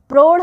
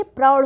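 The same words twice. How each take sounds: First: प्रौढ़ said as 'prodh'; wrong o vowel. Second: प्रौढ़ said as 'praudh'; correct au vowel. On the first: Teacher rejecting a mistake, 'prodh' for प्रौढ़. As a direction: round the vowel of प्रौढ़ to 'o'. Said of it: "प्रौढ़ नहीं होता". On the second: Teacher giving correct form, 'praudh' for प्रौढ़. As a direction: open the vowel of प्रौढ़ to 'au'. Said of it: "औ की मात्रा लगी". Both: Shown as a demonstration.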